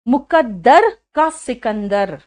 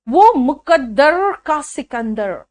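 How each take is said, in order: First: Slow मुकद्दर का सिकंदर with a plain tapped Hindi r; proper Hindi. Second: Slow वो मुकद्दर का सिकंदर with a curled English r; mock English r. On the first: Shown as a demonstration. Teacher shows pupils the proper Hindi r. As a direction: say it as a Hindi word, no English r. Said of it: "Hindi word है". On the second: Teacher mocks singer's English accent in Hindi song. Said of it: "English का जो आर था वहां घुसा दिया".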